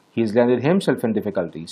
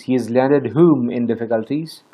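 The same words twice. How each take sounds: First: HIMSELF stressed, statement falling at the end; answer stressing himself. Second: WHOM stressed as the open question slot. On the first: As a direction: give the answer with the weight on himself. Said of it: "So himself is the object of". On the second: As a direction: ask it with the weight on whom. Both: Shown as a demonstration.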